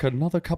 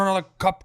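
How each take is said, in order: First: It is said in a posh British accent. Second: It is said in a Cockney accent. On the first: This sounds too uppity to the locals. "Fancy speaks with like a proper British accent" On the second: This is how the locals talk. "Down here, it's like Cockney"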